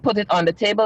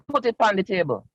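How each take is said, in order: First: It is said in standard English. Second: It is said in Caribbean English, with 'pan'. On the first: "instead of saying" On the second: "I'd be like"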